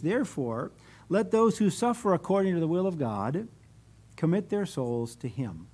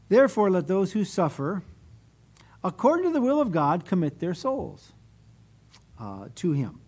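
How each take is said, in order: First: There is a pause after 'God'. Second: There is a pause after 'suffer'.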